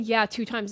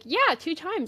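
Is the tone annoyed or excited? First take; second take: annoyed; excited. First: It is said in an annoyed, dismissive tone. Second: It is said in an excited, happy tone.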